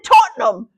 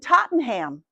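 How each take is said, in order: First: Tottenham is pronounced the British way. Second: Tottenham is pronounced the American way. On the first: The speaker calls it right. "I have to say it right" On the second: The speaker calls it wrong. "And the lady looked at me"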